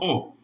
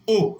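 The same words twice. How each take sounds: First: The vowel is pronounced open. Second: The vowel is pronounced closed. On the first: The speaker calls it wrong. "et non O" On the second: The speaker calls it right. "vous avez le son O"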